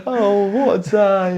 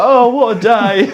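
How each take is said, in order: First: Put-on high, slow squeaky baby voice; drawn-out squeak of a newborn; mock newborn voice. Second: Put-on high, slow, laughing baby voice; mock newborn voice. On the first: Repeats the Harvey voice. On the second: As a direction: squeak it out like a big baby. Voicing Harvey being born.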